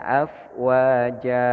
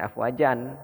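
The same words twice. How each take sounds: First: "afwaja" ending on a long open A, no N; slow chanted "afwaja" with a long final A; correct reading. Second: "afwajan" closed with an N at the end; spoken "afwajan" without the long open final vowel; wrong reading. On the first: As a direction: draw out "afwaja", holding the last vowel open. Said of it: "Nah, bacanya". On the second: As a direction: say "afwajan" short, ending in N. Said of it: "jangan afwajan". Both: Shown as a demonstration.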